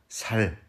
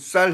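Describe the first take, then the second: First: The first consonant is a plain, soft s. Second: The first consonant is a tense, doubled s. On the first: The speaker calls it wrong. "아니 쌀 해보라고" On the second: The speaker calls it right. "당신 쌀 해봐"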